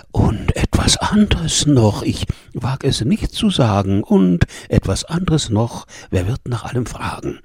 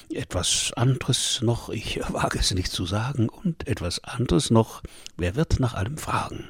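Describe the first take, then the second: First: Delighted refrain in the shepherdess's voice; entzückte Schäferin. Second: Soft, discreet aside; coy hushed refrain. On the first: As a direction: sing her praises with lifted, happy delight. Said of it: "rief entzücket die schöne Schäferin". (entzückt, in der Stimme der Schäferin) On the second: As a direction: drop the voice, as if not daring to say it. Coy refrain after the kiss. (leise und verschämt angedeutet) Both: A narrator's reading.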